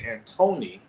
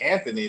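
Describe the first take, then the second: First: The middle consonant is a plain 't' sound. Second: The middle consonant is a soft 'th' sound. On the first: Listeners there will understand the name. The speaker calls it right. "They pronounce it Antony" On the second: Listeners there will not understand the name. The speaker calls it wrong. "If you say Anthony, they're gonna say what?"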